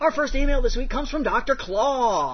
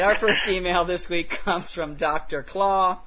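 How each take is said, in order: First: It is said in a put-on radio announcer voice. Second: It is said in an ordinary speaking voice.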